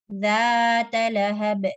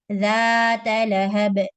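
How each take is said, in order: Both takes have the same delivery.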